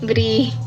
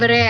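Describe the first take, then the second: First: The vowel is a long 'ee' sound. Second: The vowel is an open 'eh' sound. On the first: The speaker calls it right. "disebutannya kan I, Bri" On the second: The speaker calls it wrong. "bukan Bre ya"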